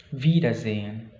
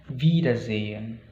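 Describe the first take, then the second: No difference in how they are said.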